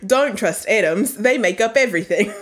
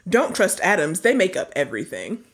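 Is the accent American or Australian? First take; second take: Australian; American. First: It is said in an Australian accent. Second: It is said in a plain American accent.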